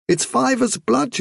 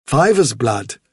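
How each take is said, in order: First: High-pitched mother's voice; high, matter-of-fact mother rabbit. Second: Leader rabbit repeating it thoughtfully; Hazel the rabbit. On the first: Vilthuril explains her youngster's gift. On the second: Hazel echoes Vilthuril's words. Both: Acted.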